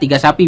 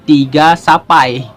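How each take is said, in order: First: The final vowel of sapi is a plain 'ee'. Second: The final vowel of sapi becomes an 'eye' sound. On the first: "biasa aja" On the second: "jadi tiga sapai karena berujung i"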